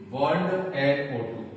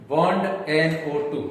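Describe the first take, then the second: First: bond एनओ टू said again more slowly and evenly; slow repeat. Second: Said in the usual way. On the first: Shown as a demonstration. Teacher repeating the nitro group for students, slower. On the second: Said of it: "nitro".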